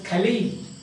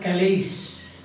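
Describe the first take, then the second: First: The word ends without an s sound. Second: The word ends with an s sound. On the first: The speaker calls it right. "he pronounced it as Kali" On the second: The speaker calls it wrong. "not Kalis"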